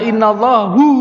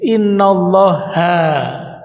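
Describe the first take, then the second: First: The word ends with a 'u' vowel. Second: The word ends with an 'a' vowel. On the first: The speaker calls it wrong. "Bapak salah" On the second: The speaker calls it right. "harus setelah inna kudu fathah"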